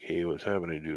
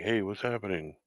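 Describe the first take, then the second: First: It sounds like a relaxed, casual greeting. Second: It sounds alert and concerned about a commotion.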